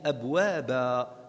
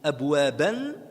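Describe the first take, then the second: First: The word ends on a long a vowel. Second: The word ends with an -an sound. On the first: The reader stops on the word. "ça se transforme en un alif" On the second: The word is read without stopping. "comme abwaban"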